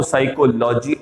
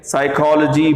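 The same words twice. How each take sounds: First: साइकोलॉजी with a full "lo-jee"; the common mispronunciation. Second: साइकोलॉजी as "sai-kol-jee"; correct pronunciation. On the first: Teacher mimics students' wrong psychology. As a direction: imitate learners saying साइकोलॉजी the long way. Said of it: "आप बोलते हो". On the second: Teacher answers his drill with the right form. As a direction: say साइकोलॉजी with the short ओलॉजी. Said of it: "क्या हो जाएगा ये?". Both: Shown as a demonstration.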